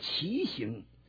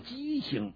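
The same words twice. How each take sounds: First: The first syllable is said as qi. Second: The first syllable is said as ji. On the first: The speaker calls it wrong. "有人的把那字念白了叫畸形" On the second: The speaker calls it right. "正确的发音叫畸形"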